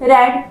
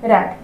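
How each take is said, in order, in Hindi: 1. स्वर छोटा है, 'red' जैसा। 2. स्वर छोटा है, 'red' जैसा।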